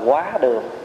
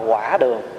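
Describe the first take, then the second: First: The first syllable has a high rising tone. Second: The first syllable has a low dipping tone. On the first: The name means passing through the dining hall. The speaker calls it right. "gọi là quá đường" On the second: The name is a corrupted form of the term. The speaker calls it wrong. "chứ không phải là quả đường"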